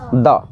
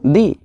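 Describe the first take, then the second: First: The vowel is a short, neutral 'uh'. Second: The vowel is a long 'ee' sound. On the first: The next word starts with a consonant sound. "Consonant sound से हो" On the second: The next word starts with a vowel sound. "Vowel sound से हो"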